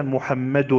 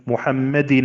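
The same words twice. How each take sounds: First: محمد said as muhammadun, ending on a doubled u-n; with tanween of damma. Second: محمد said as muhammadin, ending on a doubled i-n; with tanween of kasra. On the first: Teacher showing students the damma tanween, ending muhammadun. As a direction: pronounce محمد with the final -un sounded. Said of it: "الضمة الأولى ضمة إعراب". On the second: Teacher showing students the kasra tanween, ending muhammadin. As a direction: pronounce محمد with the final -in sounded. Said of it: "الكسرة الأولى كسرة إعراب". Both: Shown as a demonstration.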